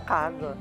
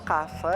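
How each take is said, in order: First: The middle consonant is a buzzing z sound. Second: The middle consonant is a hissing s sound. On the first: The speaker calls it right. "é casa" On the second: The speaker calls it wrong. "por causa da pronúncia do S"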